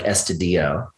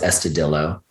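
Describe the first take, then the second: First: The name is said with a Spanish pronunciation. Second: The name is said with an English pronunciation. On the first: The speaker calls it right. "I think it should have been like" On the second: The speaker calls it wrong. "everyone pronounced it"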